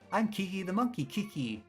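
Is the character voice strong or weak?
weak. A weak put-on voice, close to normal speech. The speaker calls it wrong.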